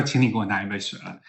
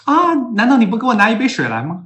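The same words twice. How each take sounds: First: Said in the usual way. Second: High, loud coaxing question; mock South African wife asking for water; indirect request as question. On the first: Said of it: "就意思是说". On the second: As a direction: ask sweetly but mean it as an order. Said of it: "南非人说话都是".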